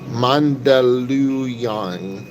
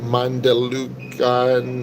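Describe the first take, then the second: First: The name is said like 'Mandaluyong'. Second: The name is said like 'Mandalucan'. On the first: The speaker calls it right. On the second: The speaker calls it wrong.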